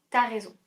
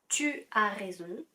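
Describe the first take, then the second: First: The pronoun is shortened to a bare t. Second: The pronoun tu is said in full. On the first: "Tu as raison devient t'as raison" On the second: "Tu as raison devient t'as raison"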